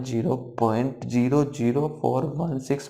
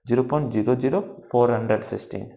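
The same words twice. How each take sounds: First: "ज़ीरो पॉइंट ज़ीरो ज़ीरो फ़ोर वन सिक्स" with every digit after the point said singly. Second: "फ़ोर हंड्रेड सिक्सटीन" read as one whole number after the point; the mistaken way, digits grouped into a number; wrong reading. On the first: Teacher shows students the right way, each digit said singly. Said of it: "ऐसे नहीं पढ़ा जाता, ठीक है, यहाँ पढ़ा जाएगा ये ऐसे". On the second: Teacher shows students the wrong way, digits grouped as a number. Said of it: "ऐसे नहीं पढ़ेंगे". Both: Shown as a demonstration.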